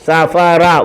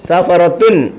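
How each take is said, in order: First: The word stops without the 'tun' syllable. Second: The word ends with a full 'tun' syllable. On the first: The speaker calls it right. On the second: The speaker calls it wrong.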